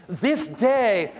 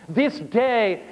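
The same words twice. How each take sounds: Both takes have the same delivery.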